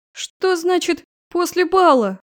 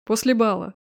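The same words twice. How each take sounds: First: Higher, louder, slow indignant question; outraged disbelief. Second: Said in the usual way. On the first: Acted. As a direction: flare up in disbelief. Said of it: "Взвилась драконица".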